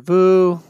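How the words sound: The sound is pitched high. The speaker calls it wrong.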